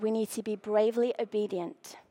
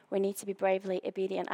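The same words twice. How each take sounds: First: A low breathy whisper, no voice at all. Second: Hushed and quick. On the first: Preacher whispering the key line to the congregation. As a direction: lean in and whisper the words. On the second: Emphatic repeat of a key line. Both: Shown as a demonstration.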